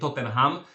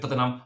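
First: It is said with a Polish-style pronunciation. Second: It is said with a native English pronunciation. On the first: The speaker calls it wrong. "wiele osób mówi Tottenham" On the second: The speaker calls it right. "w prawdziwym angielskim mówimy Tottenham"

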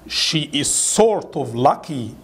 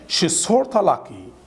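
First: The sentence is said slowly with every word separate. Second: The sentence is said quickly with words run together. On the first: "ده طبعا يا جماعة slow speaking" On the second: "انطقها fast speaking ازاي؟"

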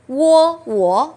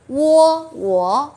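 No difference in how they are said.

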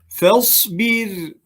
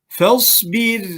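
The two takes are said the same way.

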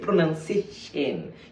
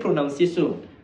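First: The word is said with careful articulation. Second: The word is said in a distorted way. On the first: The speaker calls it right. "You say pronunciation. You articulate the word shen" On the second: The speaker calls it wrong. "You don't say pronunciation"

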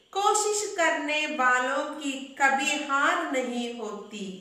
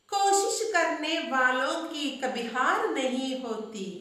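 No difference in how they are said.

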